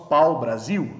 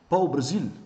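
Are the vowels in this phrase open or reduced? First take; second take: open; reduced. First: The vowels are fully open and clearly pronounced. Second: The vowels are reduced, leaving the consonants prominent. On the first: "No Brasil nós falamos pau Brasil, nós abrimos mais as vogais" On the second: "no idioma português nós temos pau Brasil"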